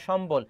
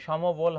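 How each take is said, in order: First: "সম্বল" said shom-bol in two syllables; m-b joined. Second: "সমবল" said sho-mo-bol in three syllables; vowel inserted. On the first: Teacher reading an option to students, "সম্বল" as shom-bol. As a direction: run m straight into b in "সম্বল". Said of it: "এটা ভুল আছে". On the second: Teacher rejecting a reading, "সমবল" as sho-mo-bol. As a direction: put an o between m and b in "সমবল". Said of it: "সমবল হবে না". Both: Shown as a demonstration.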